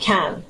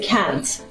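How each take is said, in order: First: The word ends with a glottal stop instead. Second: The word ends with a released t sound.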